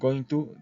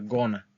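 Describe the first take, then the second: First: It is said in full as two words. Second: It is shortened and blended into one word. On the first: "En lugar de decir going to" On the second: "siempre van a mencionar gonna"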